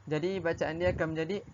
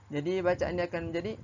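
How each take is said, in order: No difference in how they are said.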